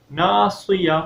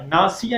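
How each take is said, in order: First: "ناصیہ" with a heavy, emphatic s; full saad. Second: "ناصیہ" with a thin, light s; seen instead of saad. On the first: Teacher corrects the saad, "ناصیہ" with heavy s. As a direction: thicken the s in "ناصیہ". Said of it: "ناصیہ میں جو سواد ہے". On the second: Teacher shows what not to read, "ناصیہ" with thin s. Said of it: "سین کی sound نہ آئے". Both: Shown as a demonstration.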